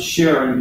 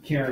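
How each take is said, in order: First: The name begins with an 'sh' sound. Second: The name begins with a 'k' sound. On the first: The speaker used to pronounce it this way. "I used to pronounce it Sharon" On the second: Someone else pronounced it this way. "I heard somebody pronounce it Karen recently"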